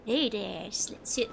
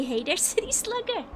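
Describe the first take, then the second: First: Lower, half-hearted cowboy attempt that stumbles; failed cowboy accent. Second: High-pitched mock Valley Girl greeting; attempted Valley Girl. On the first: Streamer attempting then abandoning it, faltering cowboy accent. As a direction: drop the pitch for a badly faked cowboy. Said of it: "I can't do a cowboy accent". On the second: Streamer trying a chat-written line, mock Valley Girl accent. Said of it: "that's not a Valley Girl thing to say".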